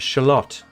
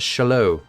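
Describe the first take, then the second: First: The final T is clearly pronounced. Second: The final T is left silent.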